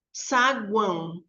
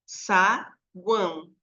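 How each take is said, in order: First: "Saguão" said slowly, guão as one syllable; pronúncia bem articulada. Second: "saguão" in two slow spaced beats, sa, guão; separação de sílabas. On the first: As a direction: stretch "Saguão" out carefully. ("Saguão" devagar e bem articulado) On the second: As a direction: pause between sa and guão in "saguão". ("saguão" separado em sa-guão) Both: Shown as a demonstration. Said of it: "duas sílabas".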